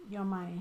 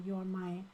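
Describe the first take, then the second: No difference in how they are said.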